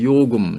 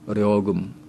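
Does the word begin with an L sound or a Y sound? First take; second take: Y; L. First: The word begins with a y sound. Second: The word begins with an l sound. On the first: This is the South Korean pronunciation. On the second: This is the North Korean pronunciation.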